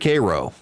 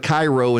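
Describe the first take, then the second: First: It is pronounced the way locals say it. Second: It is pronounced the way an outsider would. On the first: The speaker knows the place. The speaker calls it right. "instead of Cairo" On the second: The speaker does not know the place. The speaker calls it wrong. "he's going to go to Cairo instead of"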